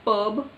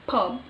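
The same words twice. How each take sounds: First: "pub" said as the mistaken take, ending on a rise; wrong pronunciation. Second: "pub" said as the model take, lightly and settled; correct pronunciation. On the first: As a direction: lift "pub" as the example to avoid. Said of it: "it's not pub". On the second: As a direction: give "pub" as the short corrected word. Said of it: "it's pub". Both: Shown as a demonstration.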